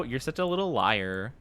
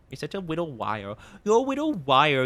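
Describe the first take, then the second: First: Said in the usual way. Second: Put-on teasing baby voice, l turned to w; baby talk. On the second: Streamer teases chat as a little liar in baby talk. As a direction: coo it like scolding a toddler.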